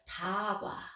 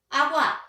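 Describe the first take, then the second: First: The s is replaced by d: dagwa. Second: The first consonant is dropped: agwa. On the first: One sound is substituted for another. "시옷을 디귿으로 발음하는 경우를 우리가 대치라고 부르고요" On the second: A sound is left out. "기억을 생략하는 거예요"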